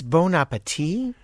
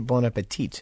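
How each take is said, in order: First: The final T sound is left off. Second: The final T sound is pronounced. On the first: "It's bon appetit?" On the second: "I say bon appetit"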